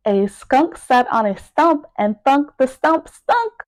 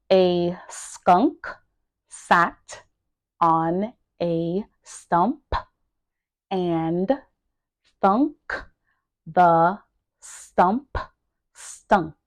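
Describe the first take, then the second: First: Said in the usual way. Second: Isolated words, long pauses between. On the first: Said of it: "pronouncing each word". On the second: Shown as a demonstration. Teacher drilling a tongue twister for learners, word by word. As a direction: pause after each word, pronouncing it carefully. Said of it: "make sure that you are pronouncing each word".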